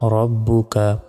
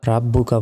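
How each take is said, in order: First: The first vowel is a rounded 'o' sound. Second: The first vowel is an open 'a' sound. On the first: The speaker calls it right. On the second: The speaker calls it wrong. "রাব্বুকা বলা যাবে না"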